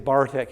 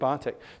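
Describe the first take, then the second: First: The R after the vowel is pronounced. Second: The R after the vowel is not pronounced. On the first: "they say" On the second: "instead of"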